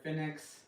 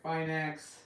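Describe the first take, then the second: First: Finex as FIN-ex, short "i"; alternative pronunciation. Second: Finex as FINE-ex, long "i"; own pronunciation. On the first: Streamer giving other people's way of saying it, Finex as "FIN-ex". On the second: Streamer naming a cast iron brand, Finex as "FINE-ex". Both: Shown as a demonstration. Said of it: "some people like to call it".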